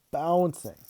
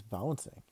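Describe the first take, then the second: First: "Bouncing" alone, higher and punched; emphatic repeat. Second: Said in the usual way. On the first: A narrator's reading. Kid narrating his dad's antics, "Bouncing" said higher with emphasis. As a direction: hit "Bouncing" as if marvelling at it.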